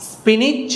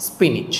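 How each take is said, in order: First: স্পিনিচ high with rising end; first alternative. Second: স্পিনিচ lower with falling end; second alternative. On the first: Teacher offers two forms to learners, first alternative for স্পিনিচ. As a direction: lift স্পিনিচ upward as the first option. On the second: Teacher offers two forms to learners, second alternative for স্পিনিচ. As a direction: drop স্পিনিচ as the closing option. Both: Shown as a demonstration. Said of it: "অথবা".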